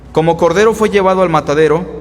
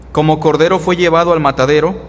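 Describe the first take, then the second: The two takes are said the same way.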